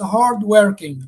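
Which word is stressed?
working. The stress is on the second word. It is used without a noun, as a predicate. "the stress falls on the second word"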